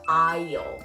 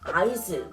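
First: No s sound is pronounced at all. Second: An s sound is pronounced before the l. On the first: The speaker calls it right. "사실은" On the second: The speaker calls it wrong. "잘못 읽으면"

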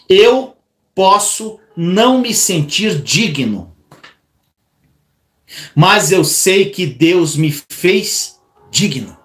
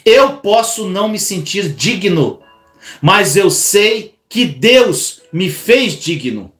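First: It is said slowly. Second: It is said at normal speed.

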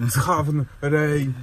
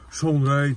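First: The name has an older, altered pronunciation. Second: The name has its current, usual pronunciation. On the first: This is how people said it in the old days. "bo kiedyś to tak jak za dawnych czasów" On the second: This is not how people said it back then. "to się nie mówiło Sean Ray"

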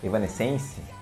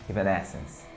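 First: It is said with a Brazilian Portuguese pronunciation. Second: It is said with an English pronunciation. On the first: This is how many people in Brazil say it. "Muita gente aqui no Brasil chama de Evanescence" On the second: This is how it is said in English. "Mas a pronúncia em inglês é Evanescence"

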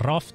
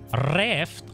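First: The word is said with a British accent. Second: The word is said with an American accent. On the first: "az UK" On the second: "az amerikai kiejtés"

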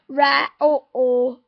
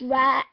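First: The word ends with an extra vowel sound. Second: The word ends with a glottal stop. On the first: The speaker calls it wrong. "Don't go rat or. Don't put or at the end of rat" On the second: The speaker calls it right. "A glottal stop is very common in Australia. Just say it's rat"

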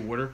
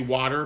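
First: Water is said in a South Jersey accent. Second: Water is said in a general American accent.

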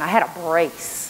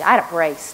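First: It is said in a plain, neutral tone. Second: It is said in a mean, scornful tone.

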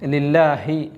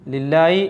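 First: The h sound is heard before the final vowel. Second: The h sound is dropped before the final vowel. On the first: The speaker calls it right. "ലില്ലാഹി എന്ന് ഹ ആണ്" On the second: The speaker calls it wrong. "ലില്ലായി എന്നൊക്കെ ആയി പോകുന്നത് ശ്രദ്ധിക്കേണ്ടതുണ്ട്"

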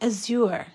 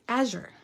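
First: The word is pronounced in a fancy way. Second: The word is pronounced in a plain way. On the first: "I think it's fancy, like azure" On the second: "he said, Erica, that's azure"

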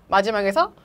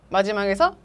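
No difference in how they are said.

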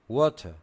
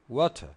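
No difference in how they are said.

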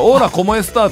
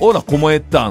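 First: The s sound in estás is clearly pronounced. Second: The s sound in estás is dropped. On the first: "オーラコモエスターって言うじゃないですか" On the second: "キューバなまりのスペイン語なんですよ。スってあんま言えない"

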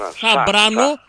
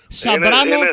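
First: The name begins with a 'th' sound. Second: The name begins with an 's' sound. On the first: "Κάποιοι τον λένε Θαμπράνο, κάποιοι θήτα" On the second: "κάποιοι σίγμα"

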